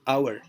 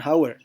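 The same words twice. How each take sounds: First: The word begins with a vowel, no h. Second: The word begins with an audible h sound. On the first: The speaker calls it right. "bunyi h itu dihilangkan" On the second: The speaker calls it wrong. "kita tidak katakan hour"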